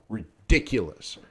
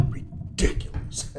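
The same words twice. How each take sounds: First: Said in the usual way. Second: Breathy, slow whisper of disbelief; a half-laughing whispered ridiculous; whispered scoff. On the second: Real, not acted. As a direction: scoff it under your breath.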